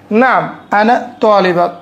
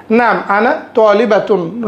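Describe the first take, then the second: First: Slow, careful তালিবা with no -tun at the end; ending dropped. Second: Slow, careful তালিবাতুন with the -tun sounded; full ending. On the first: Teacher says the shortened everyday form slowly. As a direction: stop the word at তালিবা, no final nunation. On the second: Teacher models the learner's full form for the class. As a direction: finish the word fully: তালিবাতুন. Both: Shown as a demonstration. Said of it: "আমরা শেখার সময় তালিবাতুন বলবো".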